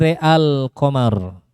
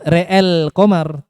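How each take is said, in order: First: The vowel after the hamzah is a plain a. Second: The vowel after the hamzah is tilted toward e. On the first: The speaker calls it right. "tapi real qamar" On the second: The speaker calls it wrong. "Bukan real qamar"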